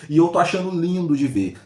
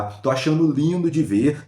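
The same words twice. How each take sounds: First: Said in the usual way. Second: Slow, drawn-out relish; savoring repeat. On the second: Real, not acted. Vlogger relishing the anchor's criticism, slowly. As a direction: let each word linger with satisfaction.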